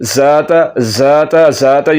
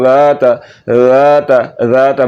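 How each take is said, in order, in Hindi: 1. पहले व्यंजन में सीटी जैसी z वाली हिस है। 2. पहला व्यंजन नरम th है, इसमें सीटी नहीं है। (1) "ये गलत है" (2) "बगैर सीटी के पढ़ना है"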